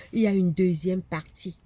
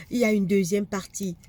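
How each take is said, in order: Both takes have the same delivery.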